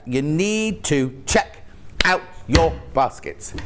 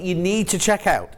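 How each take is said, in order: First: Slow, every word spaced out; slow emphatic repeat. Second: Said in the usual way. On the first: Real, not acted. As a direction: spell it out slowly for viewers. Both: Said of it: "repeated slowly".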